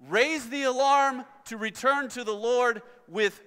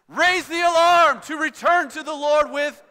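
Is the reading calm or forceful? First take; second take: calm; forceful. First: It is read in a calm, moderate voice. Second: It is read loudly and forcefully, like an exclamation. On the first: The speaker calls it wrong. "that's decent" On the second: The speaker calls it right. "read it as if Joel was here and he's a little cranky and he wants to see that exclamation mark"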